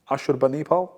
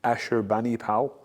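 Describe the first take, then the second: First: Ashurbanipal with the Assyrian sounds, ah-shur-ba-nee-pal; Assyrian pronunciation. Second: Ashurbanipal in the English way, ash-ur-BAN-i-pal, a little lower and softer; English pronunciation. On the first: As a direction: Ashurbanipal said the native way, rising. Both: Shown as a demonstration. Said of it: "or as the English say".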